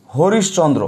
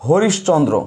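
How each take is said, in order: Both takes have the same delivery.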